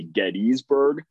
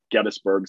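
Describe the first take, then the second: First: Gettysburg with a long EE, GET-ees-burg; outsiders' pronunciation. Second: Gettysburg with a short, reduced middle, GET-is-burg; local pronunciation. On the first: Host shows how people farther away say it, outsiders' pronunciation. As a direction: sound out the middle of Gettysburg as "ees". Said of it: "a little bit far away say". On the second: Host explains how nearby people say the town, local pronunciation. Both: Shown as a demonstration.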